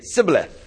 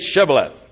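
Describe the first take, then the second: First: The word begins with a plain 's' sound. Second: The word begins with an 'sh' sound. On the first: The speaker is from Ephraim. The speaker calls it wrong. "couldn't pronounce the SH sound" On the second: The speaker is from Gilead. The speaker calls it right. "They'd say Shibboleth"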